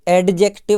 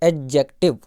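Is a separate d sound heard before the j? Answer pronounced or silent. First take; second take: pronounced; silent. First: A separate d sound is heard before j. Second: The d is silent and j is stressed. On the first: The speaker calls it wrong. "ये एडजेक्टिव नहीं होता है ना" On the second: The speaker calls it right. "ये डी यहाँ पे silent रहता है और जा को यानी जे को थोड़ा सा जोर देके बोलना पड़ता है"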